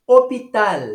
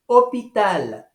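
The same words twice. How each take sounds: First: "Hôpital" louder, higher, opita with no h; French hôpital. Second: "Hôpital" again as opital, no h; repeated French model. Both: Shown as a demonstration. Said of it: "Não pronunciamos o H em francês".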